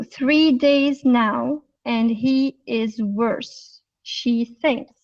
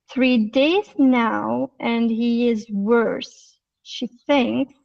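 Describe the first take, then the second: First: Slow, word-by-word reading, each word separate; normal reading, no linking. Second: "Three days now" linked smoothly, "he is" run together as "hiiz"; connected speech. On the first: Teacher shows the class the unlinked reading, slow and separate. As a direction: read it out slowly without linking any words. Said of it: "the normal reading". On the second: Teacher shows the class linked speech, smooth and joined. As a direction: join the words, let "he is" glide together. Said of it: "using the connected speech and some reduction". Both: Shown as a demonstration.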